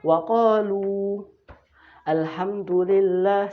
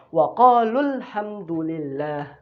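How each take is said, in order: First: It stops after a long final vowel in 'qalu'. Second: A short 'qalul' runs straight into the next word. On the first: "Yang dibaca matnya panjang ketika wakaf. Wakaf" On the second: "Tapi kalau mau pendek ya matnya nggak kita baca"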